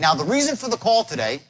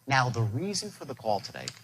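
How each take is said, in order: First: The voice stays at a normal level. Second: The voice drops low and quiet. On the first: The speaker calls it wrong. "He says" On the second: The speaker calls it right. "By dropping your voice"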